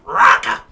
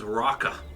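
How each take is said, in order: First: The name is said in a squawking, bird-like voice. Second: The name is said in a normal voice.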